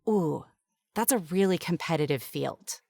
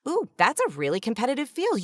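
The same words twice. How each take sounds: First: It sounds doubtful and discouraging. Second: It sounds enthusiastic and encouraging.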